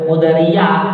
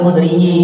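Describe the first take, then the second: First: The last syllable has an 'a' vowel. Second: The last syllable has an 'i' vowel. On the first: The speaker calls it wrong. "bukan Khudriyah" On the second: The speaker calls it right. "dibacanya kasroh"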